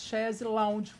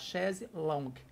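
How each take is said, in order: First: The last word is said like English 'lounge'. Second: The last word is said like French 'longue'. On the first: "mas pronunciamos chaise lounge" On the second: "o correto é a gente falar chaise longue"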